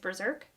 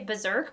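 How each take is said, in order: First: The first syllable has an R sound, like burr. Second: The first syllable sounds like buzz, without an R. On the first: The speaker calls it right. "I think it's Berserk because there's an R" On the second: The speaker calls it wrong. "I want to say Berserk"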